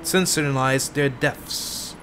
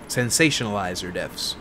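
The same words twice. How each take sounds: First: "sensationalize" slurred to "sen-suh-nuh-lize"; stumbled pronunciation. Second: "Sensationalize" with every syllable, "sen-SAY-shun-uh-lize"; low aside, "Sensationalize" said in full; corrected pronunciation. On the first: Reader tripping over game dialogue, "sensationalize" said as "sensonalize". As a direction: drop the "-sa-tion-" middle of "sensationalize". Slips on word, then repeats it. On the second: Reader correcting a slip, "Sensationalize" said with its full "-sation-". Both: Real, not acted.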